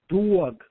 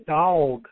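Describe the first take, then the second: First: Dog is said in a Brooklyn accent. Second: Dog is said in a Texas accent. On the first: "I grew up in Brooklyn. That word's pronounced properly" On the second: "where I live in Texas, they call it a dog"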